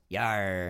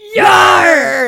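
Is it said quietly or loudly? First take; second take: quietly; loudly. First: It is said quietly. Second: It is said loudly.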